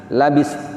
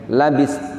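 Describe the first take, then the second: Both takes have the same delivery.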